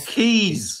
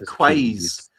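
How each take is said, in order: First: The word begins with a plain k sound. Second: The word begins with a kw sound. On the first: The speaker calls it right. "Oh, Keys" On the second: The speaker calls it wrong. "I said Quays"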